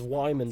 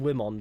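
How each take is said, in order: First: The name is said as it is really pronounced. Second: The name is said the way it looks written. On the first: This is the name's real pronunciation. "the guy whose name is Wyman" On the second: This is how people say it from the spelling. "we call him Wimon because that's how it looks like it's supposed to be pronounced"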